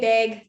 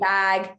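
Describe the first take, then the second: First: It is said in a Canadian accent. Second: It is said in an American accent.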